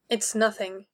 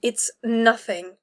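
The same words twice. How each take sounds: First: Quiet, tight through clenched teeth; a touch of restrained irritation, quiet. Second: Slow, deliberate, ground-out it's nothing; slow frustrated insistence. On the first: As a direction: hold the words back behind set teeth. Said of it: "speaking through clenched teeth". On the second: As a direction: spell it out slowly, fed up. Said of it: "she ground out, frustrated". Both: A narrator's reading.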